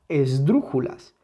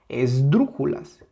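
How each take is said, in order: No difference in how they are said.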